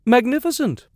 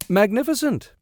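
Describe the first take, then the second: First: Much higher, louder faked rapture; hammed-up forced awe; imitation of enthusiasm. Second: High overdone excitement; mock enthusiasm. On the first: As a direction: gush over it with fake delight. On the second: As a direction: fake a big thrill. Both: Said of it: "with a good imitation of enthusiasm".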